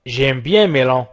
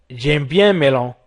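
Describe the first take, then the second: No difference in how they are said.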